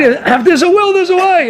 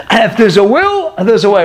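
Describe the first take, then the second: First: "there's a way" pitched much higher, leaning on it; raised emphatic repeat. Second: Said in the usual way. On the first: Shown as a demonstration. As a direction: lift the saying up high to drive it home. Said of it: "repeats the saying, raised". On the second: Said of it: "repeats the saying twice".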